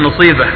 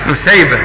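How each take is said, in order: First: The first consonant is an emphatic, heavy s. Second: The first consonant is a plain, light s. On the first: This is a regional dialect pronunciation. The speaker calls it wrong. "على قول المصريين" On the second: This is the standard pronunciation. The speaker calls it right. "لا، نسيبة"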